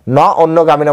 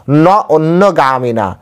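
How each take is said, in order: First: Said in the usual way. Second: ন অন্যগামিনা drawn out slowly, each syllable given its weight; slow recitation. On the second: Shown as a demonstration. Scene: preacher quotes the Gita verse to listeners, slow and deliberate. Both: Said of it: "সেজন্য এখানে বললেন".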